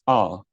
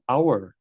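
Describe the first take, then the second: First: The final R is not pronounced. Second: The final R is clearly pronounced. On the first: The speaker calls it right. "it's our" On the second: The speaker calls it wrong. "It's not our"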